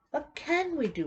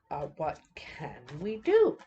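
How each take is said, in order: First: Much higher, exasperated "What can we do?"; mock exasperated plea. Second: Said in the usual way. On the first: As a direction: throw "What can we do?" up high like a frustrated crowd. Repeats the question, voicing people's frustration.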